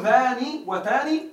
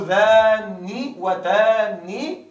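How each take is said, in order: First: Said in the usual way. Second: ذاني وتاني with the nun doubled and held, slowly. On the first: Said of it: "بتشديد". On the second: Shown as a demonstration. Teacher showing the doubled-nun form, slow and deliberate. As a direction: stretch the nun in ذاني and تاني into a long doubled sound. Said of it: "بتشديد النون".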